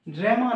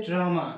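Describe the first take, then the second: First: ড্রামা said as "dræma", with a flat open æ; ড্রামা pronounced wrongly as dreme-ma; wrong pronunciation. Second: ড্রামা said as "drama", with a clear open a; ড্রামা said properly, dra-ma; correct pronunciation. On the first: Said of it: "ড্রামা নয়". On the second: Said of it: "এটা হচ্ছে ড্রামা". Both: Shown as a demonstration.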